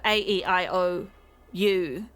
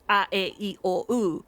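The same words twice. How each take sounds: First: The vowels are said as English letter names. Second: The vowels are said as short pure vowels. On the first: "instead of a a e i o u sound" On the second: "it's a e i o u"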